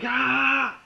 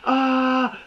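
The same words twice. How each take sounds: First: The scream sounds full of real emotion. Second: The scream sounds flat and mechanical.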